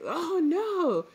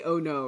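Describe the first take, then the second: First: "Oh no" high and drawn out; exclaimed OH NO. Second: Said in the usual way. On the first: Shown as a demonstration. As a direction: exclaim "Oh no" in a high, stretched swoop. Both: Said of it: "in English, you might say".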